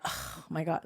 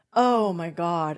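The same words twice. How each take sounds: First: Softer, dropped "Oh my God" of disappointment; dismayed oh my God. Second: Slow, louder, drawn-out "Oh my God" of relief; relieved oh my God. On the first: Shown as a demonstration. Dad misread as disappointed, a softer dismayed mutter. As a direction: let it sink, letdown. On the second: Retold or imitated. Dad hearing his daughter's news, slow and relieved. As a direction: let the relief stretch each word. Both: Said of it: "like that, but it wasn't".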